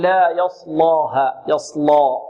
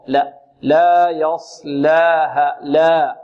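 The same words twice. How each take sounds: First: Slow يصلاها with ل as thick as the ص; wrong heavy lam. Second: Slow يصلاها with thin ل and open alif; correct light lam. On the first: Tajweed teacher imitating students' thickened ل in يصلاها. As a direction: let the ص darken the ل of يصلاها. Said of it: "واللام هنا مرققة". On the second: Tajweed teacher correcting, light ل in يصلاها. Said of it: "بدون إمالة الألف". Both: Shown as a demonstration.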